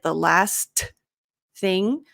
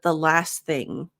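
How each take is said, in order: First: The T at the end of 'last' is pronounced. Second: The T at the end of 'last' is dropped. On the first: The speaker calls it wrong. "it never sounds like the last thing" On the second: The speaker calls it right. "So we drop that T"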